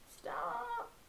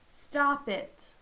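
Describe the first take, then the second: First: It is said weakly, without conviction. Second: It is said firmly, like she means it.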